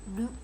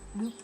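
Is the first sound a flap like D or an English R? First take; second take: D-like flap; D-like flap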